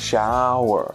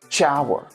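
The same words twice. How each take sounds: First: The word begins with an sh sound. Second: The word begins with a ch sound. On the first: The speaker calls it right. "The correct way to say it is sh" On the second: The speaker calls it wrong. "But Spanish speakers say"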